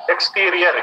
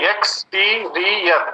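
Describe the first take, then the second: First: Said in the usual way. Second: एक्सटीरियर slowly split into four syllables; एक्सटीरियर in four slow, separate beats. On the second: Shown as a demonstration. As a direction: draw out each syllable of एक्सटीरियर. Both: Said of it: "four syllable word से".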